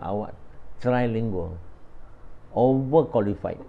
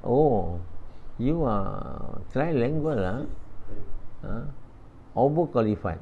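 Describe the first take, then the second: First: Said in the usual way. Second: Slow, mock Chinese Singaporean boss accent. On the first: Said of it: "Sebab tu dia cakap". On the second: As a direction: drawl it like a Chinese-Singaporean employer, lah and all.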